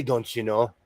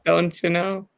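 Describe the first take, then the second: First: Soft, low hint of a Minnesotan accent. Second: Put-on Minnesotan accent. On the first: Saying the Minnesota phrase to her friend, a hint of Minnesotan accent. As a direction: murmur it like a Minnesotan. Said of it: "I say". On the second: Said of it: "when you say that".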